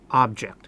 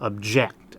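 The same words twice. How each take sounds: First: The stress is on the first syllable. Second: The stress is on the second syllable. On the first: It is the noun meaning a thing. "When it's in the noun form, object, we accent the first syllable" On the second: It is the verb meaning to go against something. "there we accent the second syllable"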